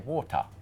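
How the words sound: It is said in a British accent. "for some British accents, they might say water"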